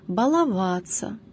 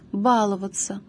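First: The stress is on a later syllable. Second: The stress is on the first syllable. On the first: The speaker calls it right. "Правильными признаются только следующие варианты" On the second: The speaker calls it wrong. "формы с ударением на первом слоге, являются неправильными"

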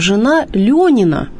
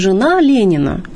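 First: The second word's first vowel sounds like 'yo'. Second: The second word's first vowel sounds like 'ye'. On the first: The wife of a man called Lyonya. The speaker calls it right. "гласный «ё»" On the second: The wife of Lenin. The speaker calls it wrong. "не жена Ленина"

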